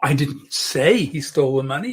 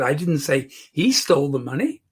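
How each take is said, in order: First: The word "say" carries the emphasis. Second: The word "he" carries the emphasis. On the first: It was implied rather than said. "I may have implied it" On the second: Someone else took it. "She stole the money"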